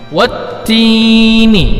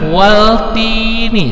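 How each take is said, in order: First: The L merges into a doubled T sound. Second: A clear L sound is heard before T. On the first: The speaker calls it right. "Tetapi wattini" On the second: The speaker calls it wrong. "jangan waltini, salah"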